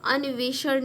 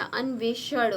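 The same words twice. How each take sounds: First: अन्वेषण with an extra i, "aniveshan"; wrong form. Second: अन्वेषण with n and v joined, no vowel between; corrected form. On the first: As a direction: break the nv of अन्वेषण with an i. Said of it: "अन्वेषण नहीं होता". (अन्वेषण को "अनिवेषण" बोलें) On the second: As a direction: join the "nv" in अन्वेषण. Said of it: "अ आधा न". (अन्वेषण में आधा न बोलें) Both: Shown as a demonstration.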